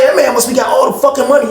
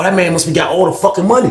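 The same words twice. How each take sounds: First: Louder insistent take. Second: Said in the usual way. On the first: Retold or imitated. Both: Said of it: "too much going on".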